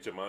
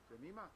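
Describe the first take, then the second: First: The middle vowel sounds like 'eye'. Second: The middle vowel sounds like 'ee'. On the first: This is how the name is said locally. "acá le dicen Jemaima" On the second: This is how the name is said in Guatemala. "En Guatemala, a Jemima le dicen Jemima"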